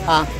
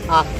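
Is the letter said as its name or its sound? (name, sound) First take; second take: sound; sound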